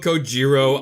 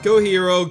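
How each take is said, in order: First: The middle consonant is a J sound. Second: The middle consonant is an H sound.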